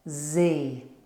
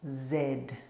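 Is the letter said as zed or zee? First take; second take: zee; zed. First: It is said as zee, American style. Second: It is said as zed, British style.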